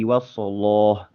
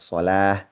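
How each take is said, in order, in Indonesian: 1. L-nya tebal dengan vokal gelap. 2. L-nya tipis dengan vokal terang. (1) "kalau orang Maroko biasanya bacanya" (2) "kalau di kita tetap aja baca"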